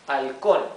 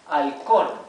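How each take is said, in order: Both takes have the same delivery.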